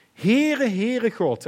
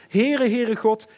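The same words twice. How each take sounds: First: Loud, high ringing call of the Lord's name; God calling out. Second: Loud proclamation. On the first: God calls out his name to Moses, loud. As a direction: proclaim it as God crying out his own name. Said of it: "dus God roept zelf". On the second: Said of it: "waarna we vaak stoppen". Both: Acted.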